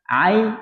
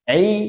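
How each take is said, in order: First: The vowel glides from a into i. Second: The vowel is a pure i throughout. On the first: The speaker calls it wrong. "Ain ini biasa salah diucapkan, akhirnya ai" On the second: The speaker calls it right. "Perhatikan mulutnya sudah dari awal memang i"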